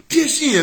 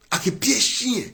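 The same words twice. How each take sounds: First: "Pied chien" thrown out much higher and louder; "Pied chien" repeated as a loud, high exclamation; emphatic repeat. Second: Said in the usual way. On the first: Shown as a demonstration. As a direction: hit "Pied" hard and high, then drop on "chien".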